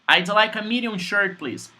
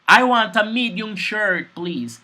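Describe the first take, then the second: First: It is said fast, in American English. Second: It is said slowly and clearly.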